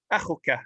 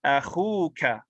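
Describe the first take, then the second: First: Akhuka quick, with a short u; short-vowel form. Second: Akhuka with khu drawn out long; long-vowel form. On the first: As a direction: say Akhuka without lengthening the khu. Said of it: "to pronounce it without that would be difficult". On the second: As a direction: stretch the oo in Akhuka. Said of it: "but with a letter". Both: Shown as a demonstration.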